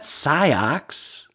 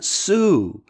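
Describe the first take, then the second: First: The word is said ending in an 'ox' sound. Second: The word is said like the name Sue. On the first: The speaker calls it wrong. "not Siox" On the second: The speaker calls it right. "like the woman's name Sue"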